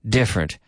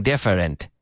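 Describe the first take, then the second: First: DIFFERENT as DIF-rent, middle vowel dropped; correct two syllables. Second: DIFFERENT as dif-er-ent, middle vowel sounded; mispronounced, three syllables. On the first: Teacher correcting the longer form, two syllables. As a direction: say different in two falling beats. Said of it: "Two syllables". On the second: Teacher showing what is not said, three syllables. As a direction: give different an extra syllable. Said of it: "I'm not saying different". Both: Shown as a demonstration.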